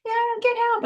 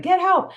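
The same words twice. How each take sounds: First: High, jokey Get help, goofing off; a teenager mocking a cry for help; imitating teens fooling around; joking teen call. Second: High, loud scream of Get help; shouting Get help at full force. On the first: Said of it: "just goofing off playing". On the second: Shown as a demonstration. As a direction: yell it like you truly need help. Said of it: "you're screaming".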